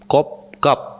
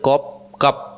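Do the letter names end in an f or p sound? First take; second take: p; p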